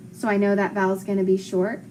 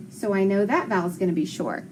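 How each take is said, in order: Both takes have the same delivery.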